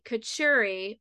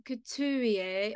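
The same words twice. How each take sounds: First: Couturier said the way Adam says it, Kuh-TOOR-ee-ay; his own way. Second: Couturier in a hammed-up mock French, Koo-too-ree-AY; bad French accent. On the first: Retold or imitated. Host giving guest's surname his way, careful pronunciation. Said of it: "as he likes to say". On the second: Shown as a demonstration. Host teasing guest with her playful mock French accent. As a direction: lean into a clumsy French Couturier. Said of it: "my worst French accent ever".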